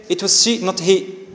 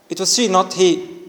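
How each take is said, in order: The two takes are said the same way.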